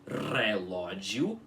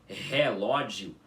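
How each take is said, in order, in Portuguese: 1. O primeiro R é enrolado. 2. O primeiro R não é enrolado. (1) "você tem que pronunciar como relógio" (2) "em vez de você pronunciar como relógio"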